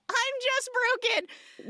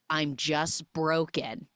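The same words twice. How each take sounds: First: Much higher, slow, stretched mock of "I'm just broken"; sing-song high mockery of the sappy dad line; mock high repeat. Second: Said in the usual way. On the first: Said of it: "He says". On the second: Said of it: "And he says".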